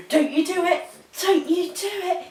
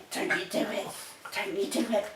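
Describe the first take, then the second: First: Higher, firm warning to the dog. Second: Softer, breathy whispered warning. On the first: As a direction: tell the puppy off before she does it. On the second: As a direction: hiss the warning quietly at the dog. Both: Real, not acted.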